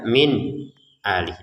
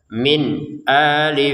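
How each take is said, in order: First: There is a short break after min. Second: The n is clear, no hum and no break. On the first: The speaker calls it wrong. "Atau jeda" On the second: The speaker calls it right. "kita baca dengan jelas"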